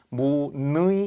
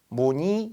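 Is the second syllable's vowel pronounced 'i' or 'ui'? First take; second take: ui; i. First: The second vowel is the diphthong 'ui'. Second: The second vowel is a plain 'i'. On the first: The speaker calls it wrong. "이렇게 하지는 않죠" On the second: The speaker calls it right. "이렇게 발음하는 거지"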